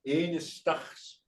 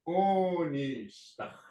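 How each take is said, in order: First: The word begins with an 'e' vowel sound. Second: The word begins with an 'o' vowel sound. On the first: This is the most common form for a buffalo calf. "some will say enistachs" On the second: This is another accepted form of the word. "some will say like this"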